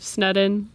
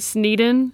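First: The first vowel is a short 'e' sound. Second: The first vowel is a long 'ee' sound. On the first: The speaker calls it right. "it's double D's, not double E's" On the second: The speaker calls it wrong. "Everyone pronounces it"

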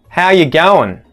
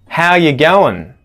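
Both takes have the same delivery.

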